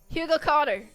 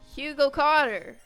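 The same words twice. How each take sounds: First: It is yelled quickly, running together. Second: It is yelled at a normal pace.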